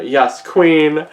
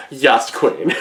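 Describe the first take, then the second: First: Louder, punchy yes queen with queen stressed; emphatic cheer. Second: Said in the usual way. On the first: Real, not acted. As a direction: land queen hard and falling. Hyping up the manga.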